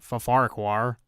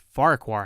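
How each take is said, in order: First: The name starts with a doubled, stuttered syllable. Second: The name starts with a single plain syllable. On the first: The speaker calls it wrong. "not Fa-Farquhar" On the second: The speaker calls it right. "Just Farquhar"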